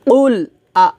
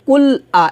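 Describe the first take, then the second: First: "কুল আ" com qaf pesado no início; faça o ক de "কুল" no fundo da boca, depois আ curto; Q espesso. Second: "কুল আ" com K comum e fino; K leve, errado. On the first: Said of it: "হবে কুল". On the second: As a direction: diga o ক de "কুল" leve, na frente da boca. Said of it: "এটা হবে না". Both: Shown as a demonstration.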